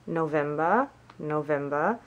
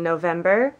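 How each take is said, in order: First: November said the German way, softer, "no-VEM-ba"; German month name. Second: Said in the usual way. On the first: Shown as a demonstration. Learner repeating the month for viewers, German pronunciation. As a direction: repeat November softly, rising at the end. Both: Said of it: "to do the months".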